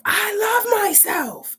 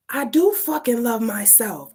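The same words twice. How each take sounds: First: Very high, drawn-out defiant scream; full-voiced re-enacted scream. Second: Raised, high-pitched insistence, starting to build; emphatic retort short of a scream; defiant cry. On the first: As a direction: scream it out slowly, stretching the words. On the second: Retold or imitated. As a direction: push back hard, voice climbing. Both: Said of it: "I'm screaming".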